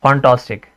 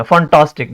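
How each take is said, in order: First: fantastic said evenly, nothing punched; easy fantastic without force on टास; unstressed, relaxed. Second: fantastic with a punched टास; over-emphasize टास in fantastic; wrongly stressed. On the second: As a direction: force on the middle of fantastic. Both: Shown as a demonstration. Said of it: "जोर दे के नहीं पढ़ना है".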